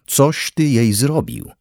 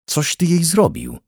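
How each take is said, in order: First: Slow, high, drawn-out howl. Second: Howled. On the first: Father repeats his accusation at Henryk, howling slowly. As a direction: stretch every word of the wailed accusation. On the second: Father turns on Henryk over his daughter, howling. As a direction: wail the accusation with pitch leaping up. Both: A narrator's reading. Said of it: "zawył".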